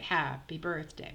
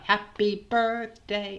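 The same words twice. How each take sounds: First: The first syllable is held long. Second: The first syllable is short and even. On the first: The speaker calls it right. "We elongate the first syllable" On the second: The speaker calls it wrong. "It's not happy birthday"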